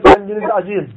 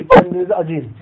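First: Said in the usual way. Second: "Kendinizi acıyın" repeated much higher and louder; emphatic repeat. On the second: Retold or imitated. The Prophet urging shouting companions to stop, raised and pleading. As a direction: cry out "Kendinizi acıyın" as an urgent plea. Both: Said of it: "Diyor ki".

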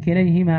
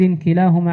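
First: كليهما with "ay", "kilayhima"; corrected word form. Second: كلاهما with long aa, "kilaahuma"; uncorrected word form. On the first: Student rereading after teacher's correction, كليهما as "kilayhima". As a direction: read كليهما as "ki-LAY-hi-ma". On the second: Student reading hadith chain to teacher, كلاهما as "kilaahuma". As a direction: read كلاهما as "ki-LAA-hu-ma". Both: Real, not acted. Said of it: "لا، كليهما".

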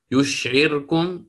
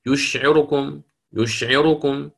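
First: يشعركم with the ra held silent. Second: يشعركم with a brief snatched vowel on the ra. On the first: Teacher reciting the first way, with a silent ra. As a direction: read يشعركم with no vowel on the ra. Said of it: "بإسكان الراء". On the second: Teacher demonstrating the second way for the narrator. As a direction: say يشعركم and barely sound the ra vowel. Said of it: "هكذا". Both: Shown as a demonstration.

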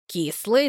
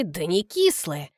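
First: Said in the usual way. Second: Кислые stressed low and slow, sly; hint that кислые hides a secret; sly smirk. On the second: Acted. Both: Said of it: "усмехается Колька хитро".

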